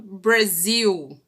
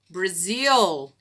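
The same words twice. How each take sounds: First: The final L is said as a U-like vowel. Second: The final L is said with tongue touching palate. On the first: The speaker calls it wrong. "E não" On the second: The speaker calls it right. "Esse é o som do L"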